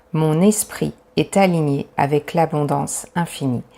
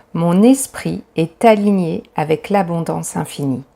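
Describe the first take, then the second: Both takes have the same delivery.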